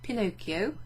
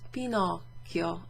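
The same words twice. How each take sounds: First: It is said with an English pronunciation. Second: It is said with an Italian pronunciation. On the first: "as British or American English speaking people might pronounce it" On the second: "actually was Pinocchio"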